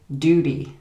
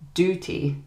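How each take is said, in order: First: The middle consonant is a soft D-like sound. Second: The middle consonant is a clear T sound.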